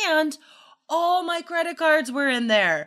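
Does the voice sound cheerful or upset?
upset. The voice sounds troubled and upset. The event was a difficult experience. The speaker calls it right. "Like totally different intonation"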